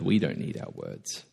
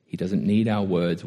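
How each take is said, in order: First: "We don't need our words" said lower and much softer, stressing "we"; softer echo. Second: Said in the usual way. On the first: Shown as a demonstration. Preacher turns the line on the congregation, hushed and low. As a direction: drop low and soft, leaning on "we".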